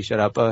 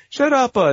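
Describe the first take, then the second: First: Said in the usual way. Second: High, loud mock Italian accent; imitated Italian yell. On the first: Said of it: "We'll say". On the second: Guy leaning out in a retold cartoon, mock Italian yell. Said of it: "like, Italian neighborhood".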